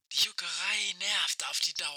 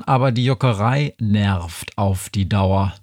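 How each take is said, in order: First: Much softer, crackling through a radio; like a faint voice over a radio; old rotary phone. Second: Said in the usual way. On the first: Acted. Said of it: "Das war Aische".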